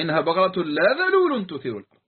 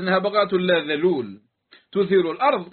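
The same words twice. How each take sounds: First: The phrase runs on without a pause after dhalul. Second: There is a pause right after dhalul. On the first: The cow neither is trained nor ploughs the land. The speaker calls it right. "هنا الوقف له أثر في الكشف عن المعنى" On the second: The cow is untrained but does plough the land. The speaker calls it wrong. "قد يتوهم أنها تثيره"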